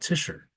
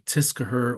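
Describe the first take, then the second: First: A sh sound, with no k sound. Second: A k sound is pronounced after the s. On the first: The speaker calls it right. "So it's like Fisher, except instead of F, it's a T" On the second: The speaker calls it wrong. "we don't say"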